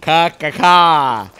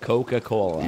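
First: It is said in a strained, distorted way. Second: It is said in a plain, ordinary way. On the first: The speaker calls it wrong. "say Coca-Cola without your lips touching" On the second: The speaker calls it right. "Just say it regularly"

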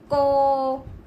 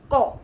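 First: The vowel is drawn out. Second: The vowel is held briefly. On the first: "자 모음은" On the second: "단 모음은"

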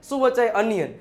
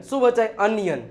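The two takes are said the same way.

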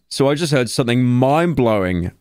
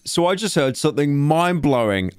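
First: It is read with low, flat energy. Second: It is read with more lively energy. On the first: "you need more energy, man" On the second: "increase the blown sounding"

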